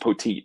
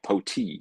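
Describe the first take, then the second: First: The name ends with a clear final T sound. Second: The name ends without a final T sound. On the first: The speaker calls it right. "the T is there" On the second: The speaker calls it wrong. "P A guy was saying like Poti"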